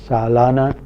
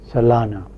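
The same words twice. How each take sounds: First: The first vowel is long. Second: The first vowel is short.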